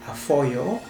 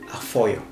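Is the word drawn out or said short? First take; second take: drawn out; short. First: The word is drawn out and prolonged. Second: The word is said short, not prolonged. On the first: A rabbit. "which I am prolonging it" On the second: Thank you. "which means thank you"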